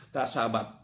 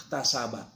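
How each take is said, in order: Both takes have the same delivery.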